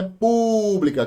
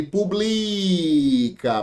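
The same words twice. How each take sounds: First: PÚBLICA with a high, drawn first syllable PÚ; stress on PÚ. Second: PUBLICA with BLI stretched very long; stress on BLI. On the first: Teacher showing the accented noun, high stressed PÚ in "pública". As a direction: hit and hold PÚ in "pública", then drop. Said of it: "Se a gente tira o acento". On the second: Teacher showing the word without its accent, long drawn BLI in "publica". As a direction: hold the middle syllable of "publica", slowly. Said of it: "A sílaba que mais se estende". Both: Shown as a demonstration.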